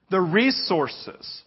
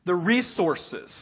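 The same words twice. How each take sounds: First: Slower, fuller "The resources." with weight on "The"; stronger repeat. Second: Slow, weighty "The resources."; repeated for emphasis. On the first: Pastor pressing the point home to the church, emphatic. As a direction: drive home "The resources." again, slowly. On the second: Pastor repeating to his congregation, slow and weighty. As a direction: lean on "The resources." drawn out. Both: Shown as a demonstration. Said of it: "Do you hear that?".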